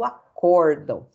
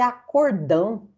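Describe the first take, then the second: First: The stress is on the second syllable. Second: The stress is on the last syllable. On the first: A ruling given by a panel of judges. The speaker calls it right. "a sílaba tônica aqui é o O" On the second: A big agreement was made in the case. The speaker calls it wrong. "o cliente pensa que é acordão"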